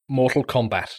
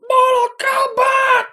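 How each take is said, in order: First: It is said flatly and plainly. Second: It is shouted loudly with energy.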